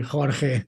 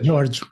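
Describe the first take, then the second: First: The name is said with Spanish pronunciation. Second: The name is said with English pronunciation. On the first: "the Spanish they say Jorge" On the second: "it comes from the English George"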